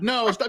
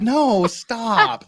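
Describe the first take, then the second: First: It is said flatly, like reading aloud. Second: It is said playfully, teasing and flirty.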